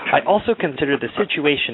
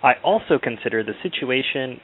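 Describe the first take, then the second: First: It is read in a very dramatic voice. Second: It is read in a plain, ordinary voice.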